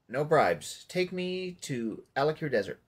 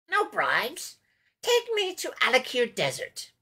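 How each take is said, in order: First: It is said in his ordinary voice. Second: It is said in a put-on character voice.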